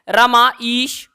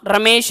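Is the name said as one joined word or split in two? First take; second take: split; joined. First: The name is split into two separate words. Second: The name is said as one joined word. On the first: The speaker calls it wrong. "अगर हम ऐसे पुकारेंगे रमा ईश" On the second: The speaker calls it right. "प्रसिद्ध नाम रमेश है"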